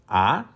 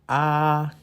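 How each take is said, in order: First: The pitch rises from middle to high. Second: The pitch stays high and level. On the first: "The second tone would start with mi, ending with so... as if you are driving up the hill" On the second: "The first tone... start with so, ending with so, as if you are driving a car on a flat ground"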